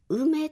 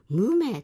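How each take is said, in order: First: The word starts with a vowel: ume. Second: The word starts with an 'm' sound: mume. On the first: This is the modern pronunciation of the word. "梅と発音するようになったのは明治以降のようです" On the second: This is the older pronunciation of the word. "乱説の時代は無名と発音していたようです"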